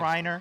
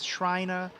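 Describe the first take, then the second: First: It is said without a Boston accent. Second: It is said with a Boston accent.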